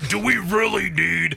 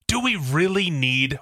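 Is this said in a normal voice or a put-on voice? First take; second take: put-on; normal. First: It is said in an imitated character voice. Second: It is said in a normal speaking voice.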